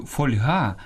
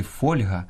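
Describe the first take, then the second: First: Фольга stressed on ГА; end-stressed фольга; wrong last-syllable stress. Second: Фольга stressed on ФОЛЬ; stress on first syllable. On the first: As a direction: say фоль-ГА. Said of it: "часто чую фольга". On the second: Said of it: "а правильно сказати фольга". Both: Shown as a demonstration.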